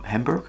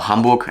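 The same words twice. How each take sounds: First: It is pronounced with English sounds. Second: It is pronounced with German sounds.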